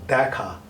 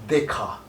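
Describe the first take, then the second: First: The first vowel is a more open e sound. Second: The first vowel is a closed e, as in eczema. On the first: The speaker calls it right. "it is Dakha" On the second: The speaker calls it wrong. "It is not Dekha"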